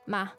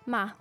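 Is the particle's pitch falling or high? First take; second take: falling; falling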